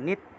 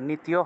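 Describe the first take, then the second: First: The ending is joined into one syllable, tya. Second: The ending is split into two syllables, ti-ya. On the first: The speaker calls it right. "নিত্য একসাথে" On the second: The speaker calls it wrong. "নিতীয় হবে না"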